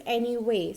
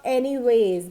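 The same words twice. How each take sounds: First: ANYWAY with no final s; correct form. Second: ANYWAYS with an added final z; common mistake. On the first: Teacher gives the correct word, anyway with no z ending. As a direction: end anyway openly on "way". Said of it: "It is always anyway". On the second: Teacher quotes what many people say, anyways with a z ending. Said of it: "So many people speak it up anyways". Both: Shown as a demonstration.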